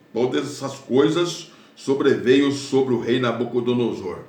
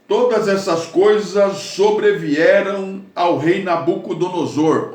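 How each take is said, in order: First: Said in the usual way. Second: Emphatic scripture reading. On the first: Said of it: "Ele foi comer capim". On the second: Shown as a demonstration. Preacher proclaiming the verse to the congregation, emphatic. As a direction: read it out like a proclamation. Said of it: "Olha aí".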